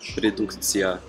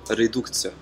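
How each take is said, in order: First: Every vowel is pronounced fully and clearly. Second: The unstressed vowels are reduced and shortened. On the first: The speaker calls it wrong. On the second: The speaker calls it right.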